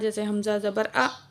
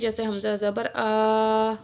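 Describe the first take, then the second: First: The final vowel is cut off with an abrupt jerk. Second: The final vowel is stretched out long. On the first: "इस तरह का झटके से नहीं पढ़ना" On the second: "खींचना भी नहीं है"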